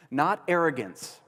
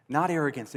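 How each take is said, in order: First: Slow, weighted "Not arrogance" with a falling close; stress on not arrogance. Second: Said in the usual way. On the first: Shown as a demonstration. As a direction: lean on "Not arrogance" and let it land.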